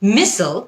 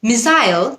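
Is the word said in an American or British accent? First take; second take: American; British. First: The word is said in an American accent. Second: The word is said in a British accent. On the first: "মিসল হচ্ছে American উচ্চারণ" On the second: "মিসাইল হচ্ছে British উচ্চারণ"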